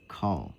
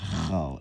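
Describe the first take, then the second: First: It begins with a hard k sound. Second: It begins with a raspy throat kh sound. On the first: The speaker calls it right. "is call" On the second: The speaker calls it wrong. "not khal"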